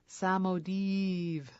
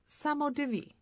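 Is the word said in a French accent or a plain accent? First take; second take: French; plain. First: The word is said with a French accent. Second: The word is said without a French accent.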